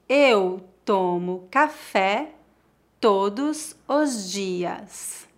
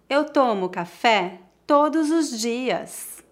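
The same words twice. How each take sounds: First: It is spoken slowly and carefully. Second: It is spoken at a natural pace. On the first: "Uma vez mais devagar" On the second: "2 vezes mais naturalmente"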